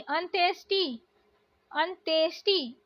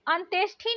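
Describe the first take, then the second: First: अंत्येष्टि with plain "ti"; unaspirated t ending अंत्येष्टि; correct pronunciation. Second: अंत्येष्टि with aspirated "thi"; breathy puff in last syllable of अंत्येष्टि; wrong pronunciation. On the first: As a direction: say अंत्येष्टि as "anteshti". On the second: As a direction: say अंत्येष्टि as "anteshthi". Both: Shown as a demonstration. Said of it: "अंत्येष्टि नहीं".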